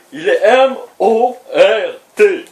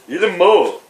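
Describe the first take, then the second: First: M O R T détaché lettre par lettre; épeler M O R T avec insistance; épelé. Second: Said in the usual way. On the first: Shown as a demonstration. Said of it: "épelé lettre par lettre". (il épelle M O R T, exaspéré) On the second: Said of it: "répété normalement".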